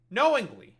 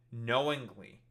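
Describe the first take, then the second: First: "knowingly" much louder and pitched high on KNOW; emphatic repeat. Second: Said in the usual way. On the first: Real, not acted. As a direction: punch "knowingly" hard, high then falling.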